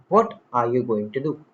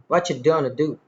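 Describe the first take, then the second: First: Each word is said fully and separately. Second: The words blend into a reduced form. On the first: This is the form used in writing. "In written English" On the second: This is the form used in everyday speech. "But in spoken"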